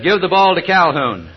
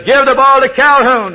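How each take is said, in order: First: Raised, calling down the sideline; a coach hollering an order to his quarterback; first call, only mildly raised; coach yelling. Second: Highest and loudest, all-out holler; a coach screaming his last chance; the final full-force order; furious coach shout. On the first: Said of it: "he yelled over to the quarterback". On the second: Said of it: "the coach leaned over". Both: Retold or imitated.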